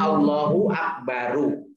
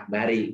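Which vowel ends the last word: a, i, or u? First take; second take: u; i. First: The last word ends in a u vowel. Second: The last word ends in an i vowel. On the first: The speaker calls it right. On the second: The speaker calls it wrong.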